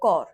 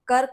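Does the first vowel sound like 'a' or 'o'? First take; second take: o; a. First: The first vowel is rounded, like 'o'. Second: The first vowel is a plain short 'a'.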